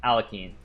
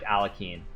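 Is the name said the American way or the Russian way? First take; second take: American; American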